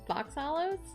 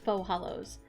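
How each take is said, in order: First: The first word ends with a 'ks' sound, like 'fox'. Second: The first word ends in a plain vowel, like 'foe'. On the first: "it's actually Fox Hollows?" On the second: "I've been pronouncing it wrong this whole time"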